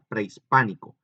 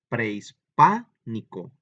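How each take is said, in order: First: The word is said at ordinary strength. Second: The syllable pa is said extra strongly. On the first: "Ahora la digo normal" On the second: "ahí es donde está muy fuerte"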